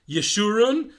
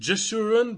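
First: The name begins with a Y sound. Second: The name begins with a J sound. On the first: The speaker calls it right. "a J is pronounced as Y" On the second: The speaker calls it wrong. "many people mispronounce it Jeshurun"

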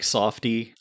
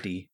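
First: The first vowel sounds like in 'soft'. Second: The first vowel sounds like in 'sad'. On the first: The speaker calls it wrong. "I pronounced it like softy" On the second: The speaker calls it right. "They're generally pronounced as the Safties"

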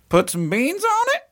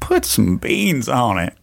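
First: It is said in a questioning tone. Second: It is said in a sad tone.

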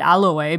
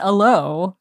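First: It is pronounced the Korean way. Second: It is pronounced the English way. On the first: "I still call it aloe because of, of habit" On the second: "I think it's aloe, like, really? In English"

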